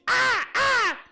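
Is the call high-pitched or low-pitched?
high-pitched. A higher-pitched crow call imitation.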